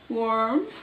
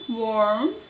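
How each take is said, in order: First: The r sound is strongly pronounced. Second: The same.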